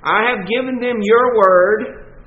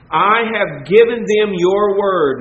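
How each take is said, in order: First: "your" lifted and held, rising on "word"; a preacher's stress on "your" with a lift at the end. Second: Weight on "given", falling to "word"; a firm preacher's stress on "given". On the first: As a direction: point the listener to "your word". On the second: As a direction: lean on "given them your word" and let it fall. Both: Shown as a demonstration. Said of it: "again the stress on the word".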